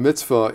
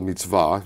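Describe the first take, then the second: First: It is said with an everyday English pronunciation. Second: It is said with a Hebrew pronunciation. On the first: It is the everyday sense of a good deed. "in the vernacular" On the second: It is the traditional religious concept and way of life. "using the Hebrew pronunciation"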